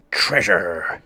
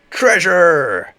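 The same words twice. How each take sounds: First: First of three rising cries; excited cry. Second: Much higher, louder squeal; ecstatic shout. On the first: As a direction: say it with growing glee. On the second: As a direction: burst out in greedy delight. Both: Acted. Building excitement.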